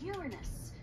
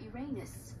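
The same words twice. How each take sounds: First: The stress is on the first syllable. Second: The stress is on the second syllable. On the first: The speaker calls it right. "the proper pronunciation is Uranus. It's a dactyl" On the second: The speaker calls it wrong. "no jokes about Uranus"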